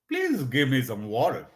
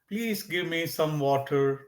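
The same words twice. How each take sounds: First: The words are said in a put-on, imitated accent. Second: The words are said in a natural, everyday accent. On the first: It is not the speaker's usual way of talking. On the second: It is the speaker's usual way of talking.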